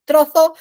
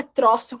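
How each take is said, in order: First: Trozo said louder, ending in a lisped th; Spanish z sound. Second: Troço with a plain hissed s; troço said the ordinary Portuguese way. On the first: Teacher shows students the Spanish z, loud lisped th. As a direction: Trozo with a th, the tongue between the teeth. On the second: Teacher contrasts the Portuguese word for her students, plain s. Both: Shown as a demonstration. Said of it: "não é troço".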